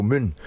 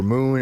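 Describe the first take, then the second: First: Short, fronted Scottish "oo" in "moon"; Scottish accent. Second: Long American "oo" in "moon"; American vowel. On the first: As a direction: say "moon" like a Scot, with a short vowel. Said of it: "In Scotland we go". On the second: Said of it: "oo" for moon". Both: Shown as a demonstration.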